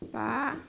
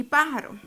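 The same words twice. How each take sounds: First: Pá, ja, ro with long pauses, softer; syllable by syllable. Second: Said in the usual way. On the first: Shown as a demonstration. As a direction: break Pájaro into three separate syllables.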